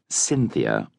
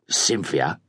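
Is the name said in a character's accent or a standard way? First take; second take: standard; character's accent. First: The name is said in a plain standard way. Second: The name is said in the character's own accent. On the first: "The spectral blonde called Cynthia" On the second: "as he pronounced it"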